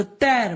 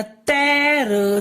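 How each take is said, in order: First: Said in the usual way. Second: तैर drawn out slowly as तै-र; syllable-by-syllable. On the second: Shown as a demonstration. Teacher giving the child an example, syllable by syllable. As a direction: sound out तैर in two long parts. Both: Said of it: "बोलते हैं ना बेटा".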